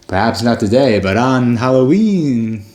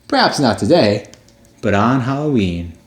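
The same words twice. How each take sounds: First: It is read in a put-on spooky voice. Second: It is read in a plain, ordinary voice.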